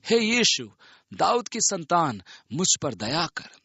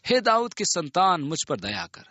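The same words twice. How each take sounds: First: Higher-pitched plea, mildly raised; calling out. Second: Insistent plea, starting high and falling away; narrator's mild shout, pleading for mercy; crying out more. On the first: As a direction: call out to Jesus for mercy in a narrator's measured cry. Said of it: "उसने पुकार के कहा". (पुकारते हुए, ऊँचे सुर में विनती) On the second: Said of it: "वह और भी चिल्लाने लगा". (और भी पुकारते हुए, हल्की चिल्लाहट) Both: A narrator's reading.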